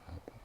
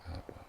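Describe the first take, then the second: Both takes have the same delivery.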